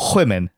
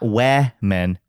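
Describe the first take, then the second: First: The first vowel is short, as in 'wit'. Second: The first vowel is open, as in 'wear'. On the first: The speaker calls it right. "Yeah, perfect" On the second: The speaker calls it wrong. "Not where men"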